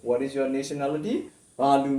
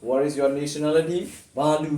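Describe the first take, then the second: No difference in how they are said.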